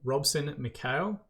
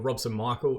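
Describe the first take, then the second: First: The name is pronounced the Portuguese way. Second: The name is pronounced the English way.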